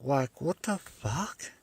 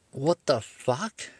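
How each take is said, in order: First: Slow, higher, softer stunned question; stunned, stretch it out softly; drawn-out baffled. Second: Slow, higher, stretched disbelief; drawn-out baffled. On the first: Real, not acted. Repeats baffled reaction. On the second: Retold or imitated. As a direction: let the disbelief hang on every word. Baffled at cop's sentence.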